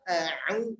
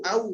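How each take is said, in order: First: A throat sound separates the two vowels. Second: The two vowels run together without a break. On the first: The speaker calls it right. "Ta'awud itu a'u" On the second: The speaker calls it wrong. "keliru au, au, salah"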